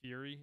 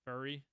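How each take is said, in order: First: "Fury?" as a clear "fyoo-ree" with a questioning rise; "Fury?" as "fyoo-ree", testing whether it's right; checking pronunciation. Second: "Fury." slurred to "ery", the F and the y-glide dropped; "Fury." swallowed into a short "ery"; unsure pronunciation. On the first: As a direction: say "Fury?" as "fyoo-ree", unsure, lifting at the end. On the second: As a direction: mumble "Fury." as a quick "ery". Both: Shown as a demonstration. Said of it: "I think I'm saying it right".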